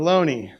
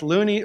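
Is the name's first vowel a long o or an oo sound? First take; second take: long o; oo. First: The first vowel is a long o sound. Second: The first vowel is an oo sound. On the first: The standard accepted way in the United States. "a mark indicating a long O" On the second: The family's own way of saying the name. "Loney's grandson and his family... pronounced the name Looney"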